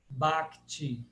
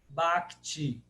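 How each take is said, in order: Both takes have the same delivery.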